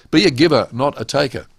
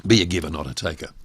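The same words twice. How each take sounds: First: A giver punched louder and higher, not a taker settling down; slogan delivered with force; emphatic motto. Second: Be a giver, not a taker run through fast and lower; quick lower restatement. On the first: Speaker announcing his key rule, emphatic. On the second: Speaker repeating his rule before explaining, quick and low. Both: Shown as a demonstration. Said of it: "What does that actually mean?".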